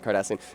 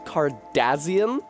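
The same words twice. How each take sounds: First: The middle consonant is an S sound. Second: The middle consonant is a Z sound. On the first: This is the usual way to say it. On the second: This is how some British accents say it.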